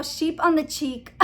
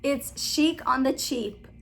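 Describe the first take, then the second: First: "sheep" for the first word, "cheek" for the last; name said wrong. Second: Slow and careful, "Chic" as sheek, "Cheap" with ch; slowly, said right. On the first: Vlogger botching another channel's name, said wrong. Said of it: "without saying it the wrong". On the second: Vlogger correcting herself on a channel name, slowly. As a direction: pronounce "Chic" then "Cheap" deliberately. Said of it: "I'm gonna say it more slowly". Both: Real, not acted.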